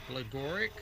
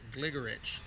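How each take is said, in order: First: The name ends with a hard k sound. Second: The name ends with a ch sound. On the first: This is the commonly known pronunciation. "you may know this person as Gligoric" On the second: This is how a native-language speaker says it. "Gary Kasparov, pronounces it Gligorich"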